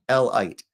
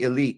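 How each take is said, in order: First: The word begins like the letter L. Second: The word begins with a short vowel sound. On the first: They are the people who belong to L. The speaker calls it right. "Pronounce the word correctly" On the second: The ordinary word for a select group. The speaker calls it wrong. "Everybody wants to say elite"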